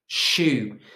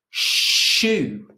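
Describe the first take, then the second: First: Said in the usual way. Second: "shoe" with a long, loud sh; stressed initial sh. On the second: Shown as a demonstration. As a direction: stretch the first sound of "shoe", pitched up. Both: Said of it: "words that begin with sh".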